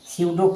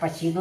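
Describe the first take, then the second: First: The word starts directly with an s sound. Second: The word starts with p followed by a vowel. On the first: The speaker calls it right. "इसे स्यूडो पढ़ेंगे यानी P silent रखेंगे" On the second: The speaker calls it wrong. "या पसीडो नहीं"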